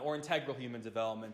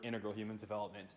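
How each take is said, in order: First: Integral is said the Canadian way. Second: Integral is said the American way. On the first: "as it's pronounced in Canada" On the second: "I learned this stuff in the States, so I use the word"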